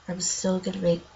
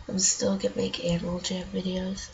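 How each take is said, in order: First: Said in the usual way. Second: Stuffy nose, morning voice; blocked nose. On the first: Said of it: "ugh, crap". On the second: Real, not acted. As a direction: talk through a blocked nose. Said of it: "my nose is all stuffed up".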